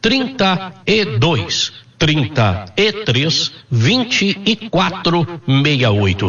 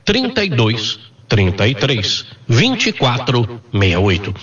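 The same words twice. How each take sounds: First: The number is said slowly. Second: The number is said at normal speed.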